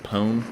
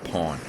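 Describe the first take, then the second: First: The word does not sound like pawn. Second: The word sounds like pawn. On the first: "I always say Pwn" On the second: "I think it's Pawn because that's where the word derives from"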